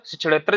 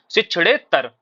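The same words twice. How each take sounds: First: शिक्षणेत्तर with a doubled "tt"; wrong pronunciation. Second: शिक्षणेत्तर with a long "ne" and single "t"; correct pronunciation. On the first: Teacher rejects the faulty word, mispronounced. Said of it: "जैसा कोई शब्द नहीं होता". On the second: Teacher gives students the right word, correctly pronounced. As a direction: stretch the "ne", then a light "tar" in शिक्षणेत्तर. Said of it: "आधिता का प्रयोग नहीं होता". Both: Shown as a demonstration.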